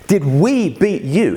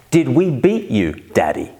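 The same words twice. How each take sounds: First: Slow, punched-out mock outrage; mock indignant repeat. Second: Lightly voiced child asking Daddy; a hint of a little girl's cheeky question; daughter's question. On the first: Dad appalled by daughter's cheek, mock indignant. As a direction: draw out "Did we beat you" in disbelief. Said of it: "The cheek, the arrogance". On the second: Dad quoting his four-year-old, lightly voiced child. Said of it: "she asked".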